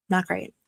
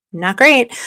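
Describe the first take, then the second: First: A soft grim aside; quiet deadpan. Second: Louder emphatic repeat. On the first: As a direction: mutter it flatly to yourself. Dry aside on munitions. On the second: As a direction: say it out loud this time, insistent. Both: Real, not acted.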